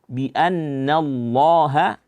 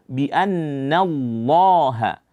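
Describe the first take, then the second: The two takes are said the same way.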